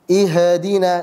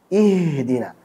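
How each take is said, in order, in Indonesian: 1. Bunyi h memantul dengan gema. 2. Bunyi h halus tanpa memantul. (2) "Harusnya apa?"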